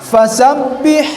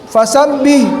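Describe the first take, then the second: Both takes have the same delivery.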